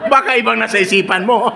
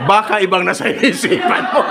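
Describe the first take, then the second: First: Higher, louder laughing tease; louder teasing laugh. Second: Higher, laughing tease; teasing laugh. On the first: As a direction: repeat the tease, laughing harder. Repeated tease. (mas malakas na panunukso habang tumatawa) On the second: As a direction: tease him while laughing. Teasing the audience member. (nanunuksong may tawa) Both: Real, not acted.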